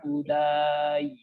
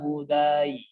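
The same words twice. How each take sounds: First: The long vowel is held for four counts. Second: The long vowel is held for two counts. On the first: "Jadi bacanya empat harokat" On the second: "boleh kalau dua harokat"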